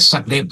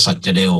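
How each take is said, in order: First: "ซักเดฟ" said sak-dep, with a k in the middle; old India-schooled pronunciation. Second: "สัจเดล" said sat-ja-del, ending on an l-like glide; owner's pronunciation. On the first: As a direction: pronounce "ซักเดฟ" in two syllables, sak-dep. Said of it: "ผมเป็นเด็กอินเดียเก่าก็จะออกเสียงว่า". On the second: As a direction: pronounce "สัจเดล" with a j sound in the middle. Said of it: "แกออกเสียงว่าสัจเดลนะ". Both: Shown as a demonstration.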